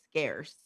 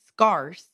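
First: The vowel sounds like the one in 'care'. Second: The vowel sounds like the one in 'car'. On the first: The speaker calls it right. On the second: The speaker calls it wrong.

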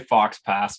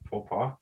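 First: The final x and s sounds are pronounced. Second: The final x and s sounds are silent. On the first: The speaker calls it wrong. "I was gonna say fox pass" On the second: The speaker calls it right. "that's how"

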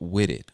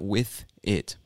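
First: 'With' ends in a soft d sound. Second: 'With' ends in a clear th sound. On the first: "when the TH becomes a soft D sound" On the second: "not with it"

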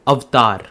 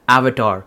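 First: It is said with an Indian pronunciation. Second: It is said with a native English pronunciation.

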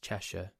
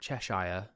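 First: The last syllable is short and reduced. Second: The last syllable sounds like the word shire. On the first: The speaker calls it right. "it's Cheshire" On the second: The speaker calls it wrong. "it's not Cheshire, ... what you tend to do in America is say like Shire"

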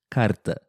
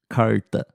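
First: The R is a quick light tap. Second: The R is curled back in the mouth. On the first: This is how it is said in southern Brazil. "E no sul do Brasil, ... É o som do R fraco" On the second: This is how it is said in São Paulo. "Em São Paulo, ... que é um R bem peculiar"

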